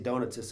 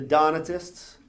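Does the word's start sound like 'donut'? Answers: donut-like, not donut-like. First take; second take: donut-like; not donut-like. First: The first part sounds like the word donut. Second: The first part does not sound like donut. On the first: The speaker calls it wrong. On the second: The speaker calls it right.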